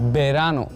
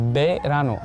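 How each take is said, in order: The two takes are said the same way.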